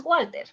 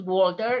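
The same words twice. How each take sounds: First: Walter with a flat a, WAL-te, no r; Spanish pronunciation. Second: Walter with an open aw, WOL-ter, r at the end; English pronunciation. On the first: Teacher gives the Spanish way to say Walter. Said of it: "you pronounce Walter". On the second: Teacher shows the wrong English way to say Walter. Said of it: "it's not Walter". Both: Shown as a demonstration.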